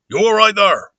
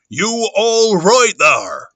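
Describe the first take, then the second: First: Raised, loud rustic call; Mister Hall. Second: Slow, drawn-out loud rustic call; Mister Hall. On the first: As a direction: call out higher in a countryman's voice. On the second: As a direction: stretch every word, calling high and loud. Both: Acted. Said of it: "Okay, Mister Hall".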